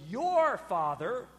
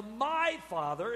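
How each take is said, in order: First: "your father" slow, stressing "your". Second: "my father" slow, stressing "my". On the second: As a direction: lean on "my" in "my father". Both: Shown as a demonstration. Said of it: "did you catch the contrast".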